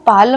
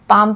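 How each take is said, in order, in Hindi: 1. इस शब्द में L ध्वनि का उच्चारण होता है। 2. इस शब्द में L ध्वनि का उच्चारण छोड़ दिया जाता है। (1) "इसको हम पालम नहीं" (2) "पाम पढ़ते हैं"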